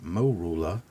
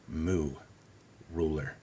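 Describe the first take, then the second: First: The first syllable sounds like mor. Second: It is said as moo, then ruler. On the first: "You can pronounce it morula" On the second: "I'll pronounce it moo, as in moo cow"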